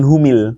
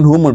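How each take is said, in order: First: The linking vowel after hum is i. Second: The linking vowel after hum is u. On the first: The speaker calls it wrong. "bukan humil" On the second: The speaker calls it right. "humul bukan humil"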